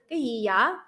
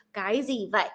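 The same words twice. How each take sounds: First: Southern Vietnamese, gì and vậy with y sounds; Southern Vietnamese accent. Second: Northern Vietnamese, gì as zee and vậy with a v; Northern Vietnamese accent. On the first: Contrasting South with North for listeners, Southern Vietnamese accent. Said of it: "In the South is". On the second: Contrasting North with South for listeners, Northern Vietnamese accent. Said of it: "But then the North is". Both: Shown as a demonstration.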